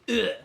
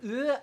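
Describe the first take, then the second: First: The groan is loud and full of force. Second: The groan is short, soft and weak. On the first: The speaker calls it right. "I need it to have some gusto" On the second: The speaker calls it wrong. "I don't want to do an uh"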